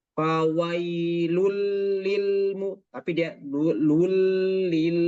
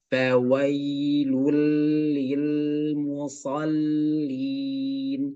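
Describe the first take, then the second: First: "fawailul lil mu-" with a slack, uneven vowel; wrong version. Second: "Fawailul lil musallin" drawn out very slowly; correct recitation. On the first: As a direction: show the mistake in "fawailul". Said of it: "jangan sampai kayak". ("fawailul lil" cara yang salah) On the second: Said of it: "pengucapannya pas itu". ("Fawailul lil musallin" dibaca pelan dan tepat) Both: Shown as a demonstration.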